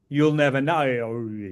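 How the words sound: It is said in an exaggerated mock-Australian accent. "when you Americans make fun of us Aussies"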